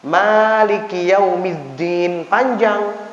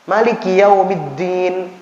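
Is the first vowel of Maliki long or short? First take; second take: long; short. First: The first vowel of Maliki is long. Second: The first vowel of Maliki is short. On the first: It follows one accepted reading tradition. "Kalau qiraat Hafs bacaannya Maliki Yaumiddin panjang" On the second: It follows another accepted reading tradition. "Tapi kalau qiraat Abi Amr dibacanya"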